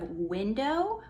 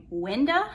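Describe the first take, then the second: First: Said in the usual way. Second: "winda" ending in a short, loose "uh"; mom's pronunciation. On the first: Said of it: "I end up talking like her. Like, instead of". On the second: Shown as a demonstration. Daughter showing how she talks like mom, "winda" ending in "uh". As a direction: say "winda" with the last "oh" reduced to "uh". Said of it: "we say winda".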